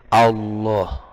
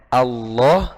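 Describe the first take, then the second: First: The first vowel is darkened toward o. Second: The first vowel is a plain, clear a. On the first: The speaker calls it wrong. "berubah jadi" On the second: The speaker calls it right. "yang harusnya"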